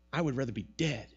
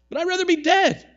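First: A hint of a low, sulky Jonah; lightly voiced Jonah wishing he were dead; sulking Jonah. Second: Much higher and louder, a sulky outburst; petulant Jonah. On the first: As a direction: mutter it low, like a sulking prophet. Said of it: "he says to God". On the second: Retold or imitated. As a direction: throw it at God like a sulking child. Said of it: "For it is better to me to die".

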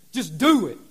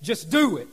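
First: "do" punched louder; stress on "do". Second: Said in the usual way. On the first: Shown as a demonstration. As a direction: hit the word "do" hard. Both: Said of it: "Put emphasis on do".

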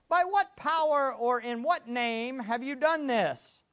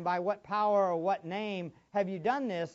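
First: Slow, higher, louder demand from the high priests; stern interrogator, drawn out; accusing rulers. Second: Said in the usual way. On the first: Acted. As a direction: drag the question out like an accuser. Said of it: "they were asking". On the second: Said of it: "they didn't just ask this question one time".

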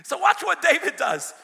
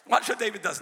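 First: Much louder, higher call to watch. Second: Said in the usual way. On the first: Acted. Preacher calling loudly for the church to watch. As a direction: ring it out to the room.

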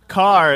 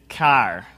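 First: Said in the usual way. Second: CAR with a nasal Midwestern flat A; Midwestern accent. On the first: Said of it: "it goes something like this". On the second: Shown as a demonstration. Preacher demonstrating the accent for his congregation, Midwestern accent. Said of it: "it's kind of that nasally".

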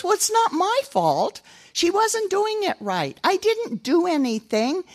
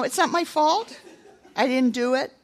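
First: Put-on high, slow whining boy; whiny excuse. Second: High, laughing imitation of a sulky child; mock the whining with a laugh; mock whiny excuse. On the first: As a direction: make excuses like a sulky three-year-old. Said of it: "kind of sound that way". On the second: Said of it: "sound that way to God".

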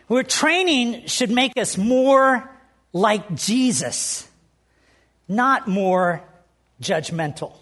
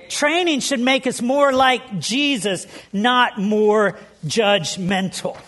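First: Slow emphatic point. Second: Slow emphatic repeat. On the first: First slow statement of point. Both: Acted.

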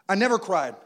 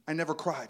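First: "I never cried" again, louder and punched on "never"; emphatic repeat. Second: Said in the usual way. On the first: Shown as a demonstration. Pastor insisting to the church he never cried, stress on "never". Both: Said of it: "Am I lying?".

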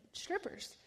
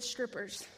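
First: "Strippers?" breathed out high and whispered in disbelief; a stunned, whispered, rising "Strippers?"; high, whispered double-take on "Strippers?"; shocked disbelief. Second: Low, soft and final; a quiet, low, certain answer from God; God says "Strippers." low and softly, falling. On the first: Her shocked reply to God. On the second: God answers her prayer. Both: Acted.

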